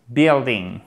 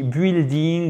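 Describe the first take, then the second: First: A short i is heard in the first syllable. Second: A u sound is heard in the first syllable. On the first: The speaker calls it right. "on n'entend pas le U. Vous avez un simple I court" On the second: The speaker calls it wrong. "Et c'est pas buildi, building"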